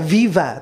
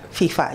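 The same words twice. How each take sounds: First: The word begins with a v sound. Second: The word begins with an f sound. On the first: "Mestinya dia menyebutnya Viva" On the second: "tapi enggak kan"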